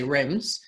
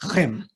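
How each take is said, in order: First: It is said the Australian way, with an s. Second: It is said the French way, without an s.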